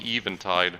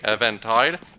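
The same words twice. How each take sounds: First: The first part sounds like the word 'even'. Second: The first part sounds like the name 'Evan'. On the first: The speaker calls it right. "it's probably Eventide, what it's supposed to be called in pronunciation" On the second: The speaker calls it wrong. "it probably would only be pronounced that way, Eventide, if it was E V A N Tide"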